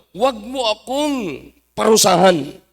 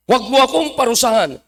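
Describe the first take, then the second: First: Slow, drawn-out acted pleading; preacher stretching the devil's entreaty; devil's plea. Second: Quicker, run-together acted plea; brisk preacher's rendering of the devil's entreaty; devil's plea, repeated. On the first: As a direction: drag out each word of the plea. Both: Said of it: "Anong pakiusap ng diablo?".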